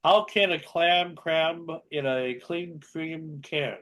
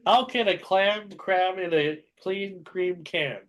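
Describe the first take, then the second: First: Slow, deliberate tongue twister; slow careful reading. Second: Slow, clearer second take; slow careful repeat. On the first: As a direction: say each word slowly. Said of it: "tongue twisters". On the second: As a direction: spell it out slowly. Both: Shown as a demonstration.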